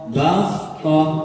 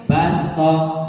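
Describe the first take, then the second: First: The s sound is heavy and emphatic. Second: The s sound is light and plain. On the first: The speaker calls it wrong. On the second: The speaker calls it right. "maka diganti basto"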